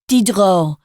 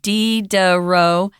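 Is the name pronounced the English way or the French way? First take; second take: French; English. First: It is said the French way, with a reduced middle syllable. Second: It is said the English way, with every syllable full. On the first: "they often don't even say de in the middle" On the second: "that's the English pronunciation"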